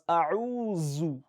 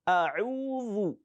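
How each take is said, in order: First: The middle consonant is a 'z' sound. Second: The middle consonant is 'dh' as in 'this'. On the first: The speaker calls it wrong. "Some people pronounce as A'uzu. That is Za. It's not Dhal" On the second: The speaker calls it right. "So let us be very careful the next time we are reciting"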